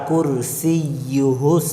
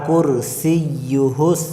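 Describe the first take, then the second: No difference in how they are said.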